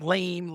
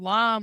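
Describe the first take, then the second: First: The word is said with the vowel of 'game'. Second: The word is said with the vowel of 'jam'. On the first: It is read as an ordinary English word. "like lame, like normal" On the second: It is read as a French word. "it's French, so we're like or or lamb"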